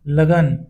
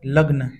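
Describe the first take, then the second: First: A short vowel separates the g and n. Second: The g and n are joined with no vowel. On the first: The speaker calls it right. "लगन शुद्ध है" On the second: The speaker calls it wrong. "लग्न अशुद्ध है"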